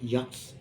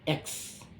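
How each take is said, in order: First: The letter name begins with a 'y' glide. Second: The letter name begins with an 'eh' vowel. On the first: The speaker calls it wrong. "not yucks" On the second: The speaker calls it right. "not yucks"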